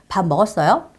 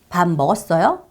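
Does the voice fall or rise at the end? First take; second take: rise; rise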